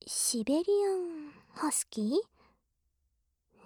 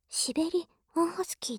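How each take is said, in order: First: The word is phrased at its usual break. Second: The word is broken at an unusual point. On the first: The speaker calls it right. "じゃあどう言えばいいの？" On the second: The speaker calls it wrong. "それも切り方がおかしい？"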